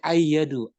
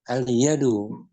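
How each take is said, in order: First: The L merges into a doubled Y sound. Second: The L of the article is clearly pronounced. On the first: The speaker calls it wrong. "Kalau nggak dibaca aneh" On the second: The speaker calls it right. "Lamnya dibaca ya"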